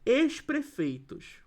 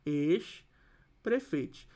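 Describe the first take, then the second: First: Said in the usual way. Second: "Ex-prefeitos" very slowly, with a pause after "Ex"; drawn-out "Ex... prefeitos" in two parts; split at the hyphen. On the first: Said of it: "a expressão ex-prefeitos". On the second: Shown as a demonstration. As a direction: separate "Ex" from "prefeitos" with a clear gap. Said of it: "a própria palavra já tem um hífen".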